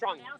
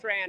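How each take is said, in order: First: The vowel sounds like 'ong' in 'song'. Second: The vowel sounds like 'an' in 'tan'. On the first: "the correct pronunciation of Vietnamese" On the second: "I know it's Van Tran"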